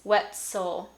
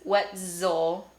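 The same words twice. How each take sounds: First: The middle consonant is a voiceless s sound. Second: The middle consonant is a voiced z sound. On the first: "I also didn't say s" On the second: "I didn't say z"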